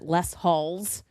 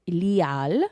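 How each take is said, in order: First: It is said with English sounds, like 'halls'. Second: It is said with French sounds, silent s and h. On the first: The speaker calls it wrong. "I hear a lot of Americans pronounce it Les Halls" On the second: The speaker calls it right. "It's called Lial"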